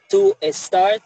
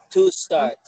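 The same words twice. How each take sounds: First: An extra e vowel is added before start. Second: Start begins directly with the s sound. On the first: The speaker calls it wrong. "no debes decir to start" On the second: The speaker calls it right. "sino to start, to start. Lo pegas ahí mismo. O sea, no debe haber ninguna E antes de una palabra que empiece con S"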